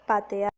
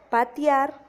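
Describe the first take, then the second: First: The two middle vowels are in separate syllables. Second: The two middle vowels merge into one syllable. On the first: The speaker calls it right. "se debería decir patear" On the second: The speaker calls it wrong. "se pasa de un hiato a un diptongo"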